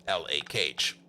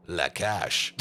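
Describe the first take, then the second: First: Said in the usual way. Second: La Cage said as French la cage, one word, not the letters L A; La Cage with French vowels, not English letters; French pronunciation. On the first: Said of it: "We all call it La Cage". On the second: Shown as a demonstration. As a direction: say La Cage the French way, lah kahzh. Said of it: "nobody over here calls it L A Cage".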